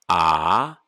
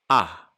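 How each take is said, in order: First: The vowel is held long. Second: The vowel is cut short.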